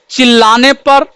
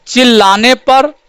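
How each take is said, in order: Both takes have the same delivery.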